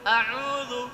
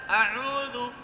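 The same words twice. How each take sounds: No difference in how they are said.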